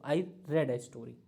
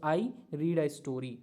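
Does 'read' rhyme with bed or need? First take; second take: bed; need. First: The vowel in read is short, like red. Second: The vowel in read is long, like reed. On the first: The speaker calls it right. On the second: The speaker calls it wrong.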